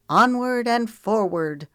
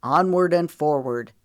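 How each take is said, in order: First: Higher, slow rallying cry. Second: Firm echo of a rallying call, louder; Moose. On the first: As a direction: draw it out high as a rallying call. Character rallies her friend. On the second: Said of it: "Moose repeated as they stood". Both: A narrator's reading.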